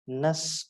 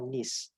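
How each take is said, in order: First: The ending has a weak 'uh' vowel, like 'nus'. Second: The ending has a short 'i' vowel, like 'nis'. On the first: "it is nus or nis" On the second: "it is nus or nis"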